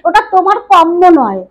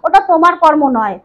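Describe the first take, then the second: First: The r becomes a doubled m sound. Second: The word keeps the r before m. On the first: It expresses more contempt. "একটু বেশি তাচ্ছিল্য করতে পারলাম" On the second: It expresses less contempt. "তাচ্ছিল্য করাটা যেন তাকে একটু কম হয়"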